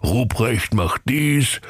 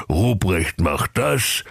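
First: Slow, lightly mocking singsong on dies; mocking the boss. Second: Mocking the boss. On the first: Ruprecht aping his boss's orders, slow mock. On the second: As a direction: drag out das with a rise. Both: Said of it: "fluchte der Knecht Ruprecht".

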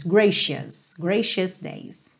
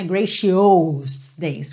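First: "gracious" as "GREY-shus", two syllables, slowly; correct pronunciation. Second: "gracious days" said with "shi-os", the wrong extra vowel; wrong pronunciation. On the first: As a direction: say "gracious" clean, no extra vowel. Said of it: "Não é gracious days". (pronúncia correta de "gracious") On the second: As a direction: show the mistake "gra-shi-ous". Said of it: "Não é". (pronúncia errada de "gracious") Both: Shown as a demonstration.

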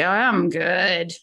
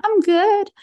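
First: "Oh, I'm good" said low and drawn out, with a falling tune; low, slow tone. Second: "I'm good" jumps much higher and louder, ending on a rise; high bright tone. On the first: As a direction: let "Oh, I'm good" sink down slowly. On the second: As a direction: pitch "I'm good" up high and lift the end. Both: Shown as a demonstration. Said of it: "the difference between them".

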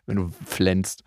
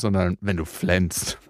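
First: "flänzt" dropped low and drawn out with disgust; disgusted stress on flänzt. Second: "flänzt" said low and slow, sneering; slow disgusted flänzt. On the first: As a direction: spit out "flänzt" as an ugly word. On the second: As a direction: drag "wenn du flänzt" out with contempt. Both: Shown as a demonstration. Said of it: "abartigen Begriff dafür verwenden".

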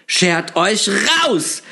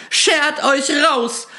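First: High, slow screech to get out; shrieking. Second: Much higher, slow, drawn-out screech; shrieking even higher. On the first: Shopkeeper screeches at the intruders to leave. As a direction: drag out a frightened order to leave. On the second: Terrified shopkeeper screeches again to drive them out. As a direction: push the order out at the top of the voice. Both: A narrator's reading. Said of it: "schrie sie auf einmal".

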